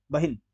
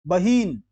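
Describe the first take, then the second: First: बहिन as a quick "bahin"; short i. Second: बहीन as "baheen", vowel held; wrong long ee. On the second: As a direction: stretch ही in बहीन. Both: Shown as a demonstration. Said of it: "फिर नहीं".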